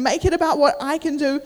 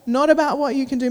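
First: "I" picked out in contrast; emphatic "I", set against "you"; stress on I. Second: "you" picked out in contrast; emphatic "you", set against "I"; stress on you. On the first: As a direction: put the weight on "I". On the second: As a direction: put the weight on "you". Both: Retold or imitated.

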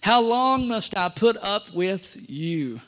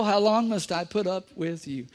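First: Slow, exasperated question; weary rebuke. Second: Said in the usual way. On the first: Acted. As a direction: sigh it out, fed up. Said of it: "he said". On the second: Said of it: "I'm just quoting the Bible".

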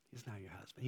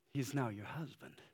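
First: "He's now your husband" repeated much softer, dropping to near hush; a hushed, intimate repeat; soft echo. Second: Said in the usual way. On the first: Acted. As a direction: let the words fall away tenderly. Softer echo of previous line.

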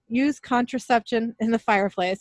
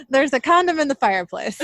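First: Said in the usual way. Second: Louder, higher and giggly, still cracking up; laughing correction. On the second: Shown as a demonstration. Host fixes a flubbed recap line while laughing. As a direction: blurt out the fixed line through laughter. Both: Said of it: "I don't know why I couldn't say that".

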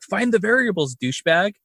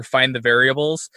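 First: Mildly irritated self-scolding, pitched higher; mock a man snapping at himself. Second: Said in the usual way. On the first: Imitating a film scientist scolding himself, irritated. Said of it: "all irritated and he's like". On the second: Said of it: "he's, like, yelling at himself".

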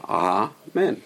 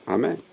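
First: "Amen" split slowly, "aah... men"; long kamatz. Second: Said in the usual way. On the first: Shown as a demonstration. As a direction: hold the first "ah" of "Amen", then add "men". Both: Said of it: "the first syllable is with a Kamatz".

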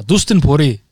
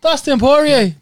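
First: Badly attempted Scottish accent. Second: High, loud New Zealand accent attempt. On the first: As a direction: have a go at the name in shaky Scottish. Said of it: "That's Scottish". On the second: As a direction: belt out the name in a dodgy New Zealand accent. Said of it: "That was New Zealand".

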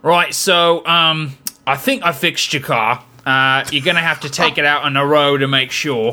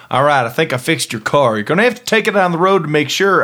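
First: Mock Cockney mechanic; Cockney accent. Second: Quicker mock Southern mechanic; Southern accent. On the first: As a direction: put on Cockney, hedging about the repair. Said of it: "or Cockney accent to say". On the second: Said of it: "somebody in a Southern".

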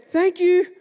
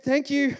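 First: High, loud mock thanks from the neighbour; imitated neighbour lady. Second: Put-on raised-pitch boy's thanks at ordinary volume; imitated young self. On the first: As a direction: play the lady next door, pitched way up. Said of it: "And she said". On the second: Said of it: "And I said".

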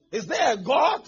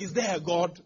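First: Shouted, higher, rising at the end; despairing shout. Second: Said in the usual way. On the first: Retold or imitated. Imitating a despairing believer shouting at the crowd. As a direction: cry it out louder the second time.

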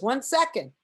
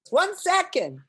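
First: Higher-pitched call through a door; mildly raised, imitated stalling shout; retold stalling call. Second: High, louder mock shout; imitated impatient yell through a door; insistent stalling call. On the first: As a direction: call out to hold off the visitor. George stalls behind the door. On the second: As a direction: holler to hold off a pestering visitor. George stalls again, more insistently.

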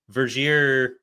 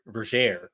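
First: Vergere said as "ver-ZHEER"; mispronounced Vergere. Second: Vergere said as "ver-ZHAIR"; corrected Vergere pronunciation. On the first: Podcaster misnaming a book character, Vergere ending in "eer". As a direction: end Vergere with an "eer" sound. It's actually pronounced Vergere. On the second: Podcaster correcting a character's name, Vergere rhyming with air. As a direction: make Vergere rhyme with air. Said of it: "it's actually pronounced Vergere". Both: Shown as a demonstration.

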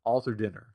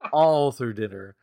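First: Said in the usual way. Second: "All through dinner" louder and slow, each word leaned on; stress on All through dinner. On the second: Shown as a demonstration. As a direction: repeat it slowly and louder to drive it home.

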